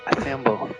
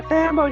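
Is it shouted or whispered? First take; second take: whispered; shouted. First: It is whispered softly into an ear. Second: It is shouted loudly to a crowd.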